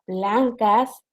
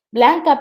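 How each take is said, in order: First: "blancas" said with a final s, as read off the slide; teacher reads "blancas" aloud, ending on a clear s; misspoken plural. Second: "blanca" said without the final s; teacher corrects herself to "blanca", ending on the vowel; corrected singular. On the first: Teacher reads the misspelled slide word "blancas" with its final s. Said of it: "blanca, perdón". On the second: Teacher fixes her slip to "blanca" for the class, no final s. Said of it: "perdón". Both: Shown as a demonstration.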